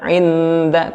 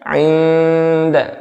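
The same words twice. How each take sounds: First: The n is pronounced clearly with the tongue. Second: The n is hidden, tongue touching nothing. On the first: The speaker calls it wrong. "jangan 'inda 'inda" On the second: The speaker calls it right. "tapi 'inda"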